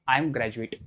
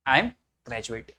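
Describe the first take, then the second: First: Said in the usual way. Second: I am graduate, very slow and spaced out; slow repeat for students. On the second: Shown as a demonstration. Teacher repeating the sentence slowly for students. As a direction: drag out each word so the class can copy it. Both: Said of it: "तो बोलेंगे".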